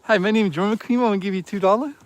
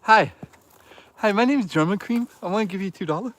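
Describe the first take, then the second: First: Mock donor voice. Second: Lightly higher put-on goofy voice; mock donor voice. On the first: Streamer repeating the chat joke as a dopey donor. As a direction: say it again, same dopey donor. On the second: Streamer repeating a chat joke in a goofy voice. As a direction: parody a chat donor introducing himself. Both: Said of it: "That's my new favorite joke".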